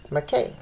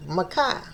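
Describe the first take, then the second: First: Makkah ending in an "ay" sound; second attempt at pronunciation. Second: Makkah ending in an "eye" sound; first attempt at pronunciation. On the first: Reader retrying an ancient name, Makkah ending like "day". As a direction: say Makkah as "muh-KAY". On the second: Reader trying an ancient name, Makkah ending like "sky". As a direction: say Makkah as "muh-KYE". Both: Real, not acted.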